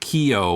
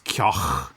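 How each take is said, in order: First: The name is given its English pronunciation. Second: The name is given its Irish pronunciation. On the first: "kind of the quote unquote English pronunciation" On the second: "in Irish it's Keogh"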